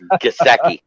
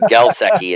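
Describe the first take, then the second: First: The name is said without any L sound. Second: The name is said with an added L sound. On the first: The speaker calls it right. "It's Gasecki" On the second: The speaker calls it wrong. "he added an L that's not in the name. He said Gelsecki"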